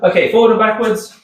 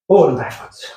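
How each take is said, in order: First: Said in the usual way. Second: "Forward and backwards" puffed out while hopping, lower; breathless mid-hop. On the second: Real, not acted. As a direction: gasp the words out between hops. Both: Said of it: "I'm getting out of breath".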